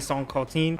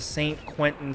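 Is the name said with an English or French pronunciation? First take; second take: French; English. First: The name is said with French pronunciation. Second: The name is said with English pronunciation.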